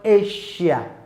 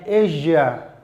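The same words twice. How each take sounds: First: The middle consonant is not a voiced 'zh'. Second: The middle consonant is a voiced 'zh' sound. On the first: The speaker calls it wrong. "not Asia" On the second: The speaker calls it right. "We have it in words like Asia"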